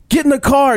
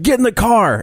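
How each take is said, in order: First: Escalating kidnapper yell. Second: Retold van man's order, pitched higher; creepy kidnapper demand. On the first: Retold or imitated. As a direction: push the retold demand up hard the second time. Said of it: "And the guy's like". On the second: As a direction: bark it like the lurking kidnapper, half mocking. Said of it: "and he's like".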